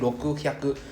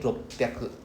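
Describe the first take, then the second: First: The middle has a k sound then h. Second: The middle has a double p sound. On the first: The speaker calls it wrong. "instead of saying rokuhyaku" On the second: The speaker calls it right. "it sounds more cool to say ropyaku"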